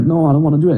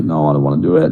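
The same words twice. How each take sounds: First: Said in the usual way. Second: Sulky low refusal. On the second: Retold or imitated. Stoned refusal in sauna.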